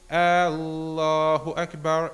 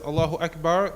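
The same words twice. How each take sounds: First: The opening vowel is drawn out long. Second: The opening vowel is short. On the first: It asks whether God is the greatest. The speaker calls it wrong. "extending the the first uh, letter, the hamza, to make it long" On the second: It states that God is the greatest. The speaker calls it right. "When one says Allahu Akbar"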